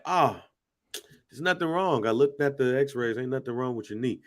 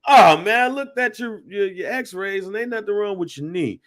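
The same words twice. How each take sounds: First: Understated, offhand doctor's brush-off; dismissive doctor. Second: Loud "Oh, man", then high, breezy brush-off; hammed-up doctor, opening big and high, then easing off; dismissive doctor, exaggerated. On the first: Retold or imitated. Imitating his doctor shrugging off a knee complaint, mildly dismissive. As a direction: casually wave the worry away, trailing softer. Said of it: "That's how he said it". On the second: Mimicking the doctor who found nothing wrong, exaggerated dismissal. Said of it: "No, this man was like".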